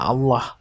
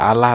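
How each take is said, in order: First: The word ends with an audible final h. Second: The word ends without a final h. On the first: The speaker calls it right. "Seharusnya kan dibaca Allah" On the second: The speaker calls it wrong. "Tapi Abaus baca Allah"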